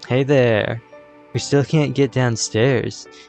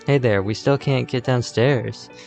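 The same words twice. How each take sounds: First: It is read in a put-on character voice. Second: It is read in a plain, ordinary voice.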